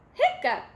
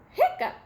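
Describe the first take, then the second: No difference in how they are said.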